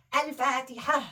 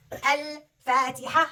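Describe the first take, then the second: First: Said in the usual way. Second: Al-Fatiha said slowly, every sound drawn out, the ending ha clear; stretched Al-Fatiha. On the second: Shown as a demonstration. Teacher showing the child the changed ending, slow and drawn out. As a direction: spell out Al-Fatiha slowly syllable by syllable. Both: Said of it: "See what happened to the ta?".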